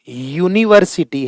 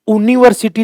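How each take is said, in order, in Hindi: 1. शब्द 'y' ध्वनि से शुरू होता है। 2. शब्द सादे 'oo' स्वर से शुरू होता है। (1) "पहली ध्वनि य" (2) "ऊ नहीं है"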